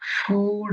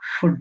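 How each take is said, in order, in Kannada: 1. ಸ್ವರ ದೀರ್ಘವಾಗಿದೆ, 'good' ಗೆ ಪ್ರಾಸವಾಗುವುದಿಲ್ಲ. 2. ಸ್ವರ ಹ್ರಸ್ವವಾಗಿದೆ, 'good' ಗೆ ಪ್ರಾಸವಾಗುತ್ತದೆ. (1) "ನಾವು ಅದನ್ನ ಫುಡ್ ಅಂತ ಓದ್ಬೇಕು" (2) "ಅದೇ ತರ ಇದನ್ನ ಫುಡ್ ಅಂತ ಮಾಡ್ತೀರಾ? ಇಲ್ಲ"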